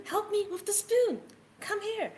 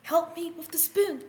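First: Much higher pleading kitten call; high desperate kitten plea; higher kitten cry. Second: High pleading kitten call; high kitten plea; kitten crying for help. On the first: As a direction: push the kitten voice up, urgent. Kitten calling for help. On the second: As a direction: squeak it out like a small desperate kitten. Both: Acted.

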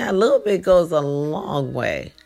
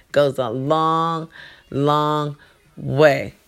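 First: Said in the usual way. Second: "Goes a long, long way" drawn out slowly, leaning on "long"; slow emphatic repeat. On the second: Shown as a demonstration. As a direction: stretch "long, long way" slowly to drive it home.

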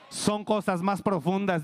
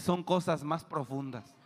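First: Louder, slower repeat of "cosas más profundas"; shouted repeat. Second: Said in the usual way. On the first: Shown as a demonstration. Preacher repeating to the congregation, slower and louder. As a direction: drive "Son cosas más profundas" home loudly.

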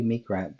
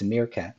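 First: "Meek Rat" said as meek plus rat, two words; the slip name "Meek Rat", spoken as meek and rat; wrong name said. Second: "Meerkat" said as one word, mere-cat; the correct "Meerkat", spoken mere-cat; right name said. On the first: Host to chat member, saying "Meek Rat" as meek plus rat. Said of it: "keep wanting to call you Meek Rat". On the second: Host correcting himself to chat member, "Meerkat" said mere-cat. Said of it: "but it's Meerkat". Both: Shown as a demonstration.

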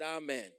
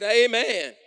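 First: Said in the usual way. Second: Much louder, higher amen. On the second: Real, not acted. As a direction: shout the amen out. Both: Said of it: "I said".

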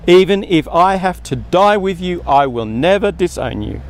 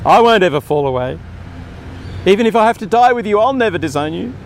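First: A firm, insistent vow; emphatic insistence. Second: Louder and higher, faster vow. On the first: Preacher voices Peter insisting he will stay loyal, emphatic. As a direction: insist on it, never doubting. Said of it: "Peter insisted emphatically". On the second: Preacher replays Peter's boast to Jesus, louder and higher. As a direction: blurt the vow out, sure of himself. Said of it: "Good intentions". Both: Retold or imitated.

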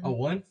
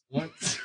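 First: Said in the usual way. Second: "Once." squeaked very high and rising. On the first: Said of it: "You said you had one". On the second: Real, not acted.

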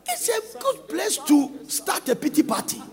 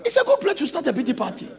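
First: Said in the usual way. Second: Fast, laughing mockery; mocking laugh. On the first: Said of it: "repeated line". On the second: Shown as a demonstration. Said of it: "repeated with laugh".

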